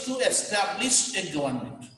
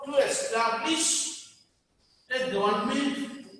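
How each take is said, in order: First: Said in the usual way. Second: "to establish a government" in slow, separate chunks; slow dictation. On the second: Shown as a demonstration. Teacher repeats the party's purpose for students, slow dictation.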